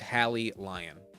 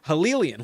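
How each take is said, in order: First: The name ends like the word lion. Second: The name ends like the word chameleon. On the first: "I'm pretty sure it's Hallie Lion" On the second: "like a like a chameleon"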